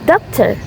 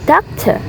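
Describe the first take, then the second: First: The final R sound is pronounced. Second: The final R sound is left silent. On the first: The speaker calls it wrong. "not doctor" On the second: The speaker calls it right. "but doctor"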